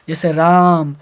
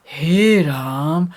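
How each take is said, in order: First: Said in the usual way. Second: हे राम stretched very slowly, like calling out; drawn-out call. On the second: Shown as a demonstration. Teacher showing the vocative form by calling हे राम. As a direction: draw out राम as if calling someone far off. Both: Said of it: "प्लुत को ऐसे संबोधित करते हैं".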